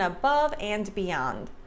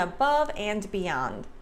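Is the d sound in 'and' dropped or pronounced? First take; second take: pronounced; pronounced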